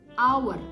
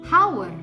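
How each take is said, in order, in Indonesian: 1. Kata itu diawali dengan bunyi vokal, tidak ada H. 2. Kata itu diawali dengan bunyi H yang terdengar. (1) "suara yang keluar adalah suara vokal our" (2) "bukan hour"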